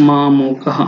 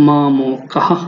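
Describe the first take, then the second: No difference in how they are said.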